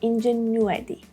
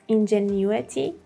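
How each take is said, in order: First: The word is said with an American accent. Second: The word is said with a British accent. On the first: "And in American pronunciation, you would hear" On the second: "The British pronunciation is"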